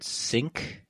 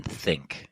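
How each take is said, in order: First: "sink" begun with a plain s; hissed s opening "sink"; S sound. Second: "think" begun with an English TH; tongue between the teeth to open "think"; TH sound. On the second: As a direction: say "think" with TH, not s. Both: Shown as a demonstration. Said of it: "say the word sink and then think".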